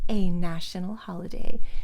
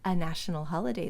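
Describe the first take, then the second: First: The word 'a' is fully pronounced as 'ay'. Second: The word 'a' is reduced to a weak vowel. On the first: It is presented as something really special. "She overpronounces it for emphasis" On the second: It is said in the ordinary way. "like we normally would"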